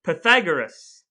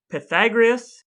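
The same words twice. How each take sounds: First: "Pythagoras" now said pa-THAG-er-us, stress on THAG; "Pythagoras" tried again the right way, -er-us ending; corrected pronunciation. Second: "Pythagoras" said as pa-THAG-ree-us, with an extra "ree" before the ending; "Pythagoras" with a wrong "gree-us" ending, stress on THAG; mispronounced name. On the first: Shown as a demonstration. Host retries "Pythagoras" after correction, as pa-THAG-er-us. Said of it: "You're saying Pythagoras". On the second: Retold or imitated. Host listing topics, says "Pythagoras" as pa-THAG-ree-us.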